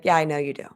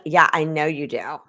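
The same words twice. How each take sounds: First: Said in the usual way. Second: Sarcastic version. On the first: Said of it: "Something like that". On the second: Shown as a demonstration. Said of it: "that can be like".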